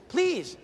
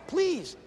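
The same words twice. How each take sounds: The two takes are said the same way.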